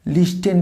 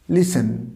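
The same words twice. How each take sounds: First: "লিস্টেন" with the t sounded; wrong pronunciation. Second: "লিসেন" as lis-en, no t at all; silent t. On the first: Teacher showing what never to say, sounded t. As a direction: say "লিস্টেন" as lis-ten, hard t. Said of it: "কখনোই করবো না". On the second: Teacher modelling the right form, silent t. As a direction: drop the t completely in "লিসেন". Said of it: "টিটা একদম silent থাকবে". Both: Shown as a demonstration.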